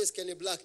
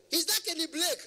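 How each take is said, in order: First: Said in the usual way. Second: High-pitched mock caller; imitated shrieky phone voice. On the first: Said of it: "I said". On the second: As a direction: ask it way up high, insistently. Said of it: "their voice is very, very high".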